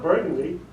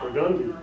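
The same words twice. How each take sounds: First: Burgundy with the stress up front, BUR-gun-dee; wrong pronunciation. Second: Burgundy stressed in the middle, bur-GUN-dee; local pronunciation. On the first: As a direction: say Burgundy like the wine, BUR-gundy. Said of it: "it's not Burgundy". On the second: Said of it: "that's how the locals speak it". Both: Shown as a demonstration.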